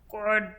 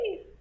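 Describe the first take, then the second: First: It is said in a low voice. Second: It is said in a high voice.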